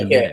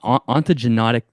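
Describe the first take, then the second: First: The fourth syllable sounds like 'ne'. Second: The fourth syllable sounds like 'no'. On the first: The speaker calls it right. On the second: The speaker calls it wrong.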